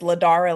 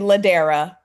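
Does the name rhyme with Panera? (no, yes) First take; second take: no; yes. First: The name does not rhyme with Panera. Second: The name rhymes with Panera. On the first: The speaker calls it wrong. "you said it with such confidence" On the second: The speaker calls it right. "it's actually Ladera, like Panera"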